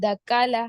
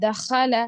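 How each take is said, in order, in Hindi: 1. बीच का व्यंजन साधारण k ध्वनि है। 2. बीच का व्यंजन हल्का, पतला kh है। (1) "खो की जगह खाल, काफ ले ले रहा हूँ" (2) "यहाँ पर मैं बारीक पढ़ा खो को"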